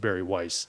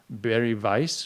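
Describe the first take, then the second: First: The name is said the American way. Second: The name is said the Austrian way.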